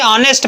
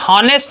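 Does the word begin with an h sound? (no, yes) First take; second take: no; yes. First: The word starts with a vowel sound. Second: The word starts with an h sound. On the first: The speaker calls it right. "इसे ऑनेस्ट पढ़ते हैं" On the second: The speaker calls it wrong. "हम हॉनेस्ट नहीं पढ़ते"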